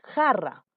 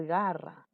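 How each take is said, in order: First: Jarra said with a rough throaty j, like a strong h; Jarra, scrape the j at the back of the mouth. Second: Garra said with a soft g, as in go; garra, soft voiced g at the front. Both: Shown as a demonstration. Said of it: "No dices garra".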